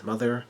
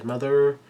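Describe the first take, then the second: First: Said in the usual way. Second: Louder, higher mock outcry; retold cry. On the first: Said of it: "she says". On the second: A narrator's reading. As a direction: call it out raised, as a narrator voicing a cry. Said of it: "she cries".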